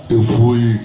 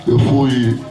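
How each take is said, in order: Both takes have the same delivery.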